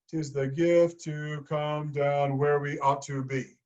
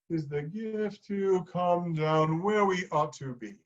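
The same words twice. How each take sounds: First: It is said with punched, forceful emphasis. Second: It gets gradually softer toward the end.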